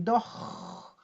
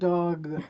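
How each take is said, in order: First: The final consonant is stretched out long. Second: The vowel is stretched out long. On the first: The speaker calls it wrong. "No, don't extend the consonant" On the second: The speaker calls it right. "You have to extend the vowel"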